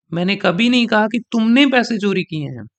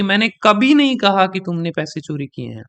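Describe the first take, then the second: First: तुमने pressed and falling; stress on तुमने. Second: नहीं punched with a falling tune; stress on नहीं. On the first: Teacher contrasting the take stressing तुमने. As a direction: put the weight on तुमने, not नहीं. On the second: Teacher showing how stress shifts meaning, stressing नहीं. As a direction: hit नहीं hard, rest light. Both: Shown as a demonstration. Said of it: "sentence level का stress".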